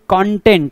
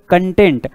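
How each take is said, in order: First: The first vowel is an open o sound. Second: The first vowel is a short uh sound. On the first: It means material or subject matter. "कॉन्टेंट उच्चार कसा होत आहे" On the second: It means satisfied or pleased. "कंटेंट इथे उच्चार काय होतोय"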